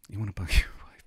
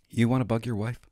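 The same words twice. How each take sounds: First: Whispered with a giggle in it. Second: Said in the usual way. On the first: Shown as a demonstration. Teasing viewers about bugging his wife, whispered. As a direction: breathe it out like a secret joke.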